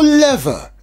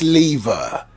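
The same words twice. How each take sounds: First: It is said with an American pronunciation. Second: It is said with a British pronunciation.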